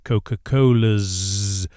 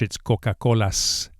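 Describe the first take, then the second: First: The word ends in a voiced Z sound. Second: The word ends in a voiceless S sound. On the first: The speaker calls it wrong. "As we do in English after vowels, we say" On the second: The speaker calls it right. "In Spanish"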